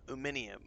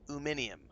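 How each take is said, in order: No difference in how they are said.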